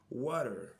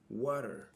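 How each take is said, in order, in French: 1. Ça se dit avec un accent américain. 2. Ça se dit avec un accent américain.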